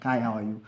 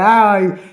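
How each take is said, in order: First: Low, softer mock-innocent hello; casual pretend greeting. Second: High, loud hammed-up cheery hello; exaggerated fake innocence. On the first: Texting back a colleague, feigning not knowing him. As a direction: act as if you don't know who texted. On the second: Greeting the colleague he recognizes, mock-innocent. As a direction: overplay the innocent surprise. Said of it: "Pretending as if I don't know who texted me".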